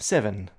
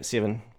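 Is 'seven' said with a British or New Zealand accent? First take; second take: British; New Zealand. First: The first vowel is a British-style open eh. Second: The first vowel is a New Zealand-style close eh. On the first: "is like eh in seven" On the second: "in New Zealand, we always go seven"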